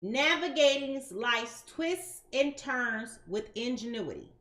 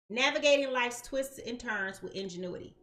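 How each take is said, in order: First: Slow, deliberate weight on "twists and turns"; "twists" and "turns" each drawn out slowly; emphatic phrasing. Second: Said in the usual way. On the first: Shown as a demonstration. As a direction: space out "twists and turns", leaning on each word. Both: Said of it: "I want to put an emphasis on twists and turns".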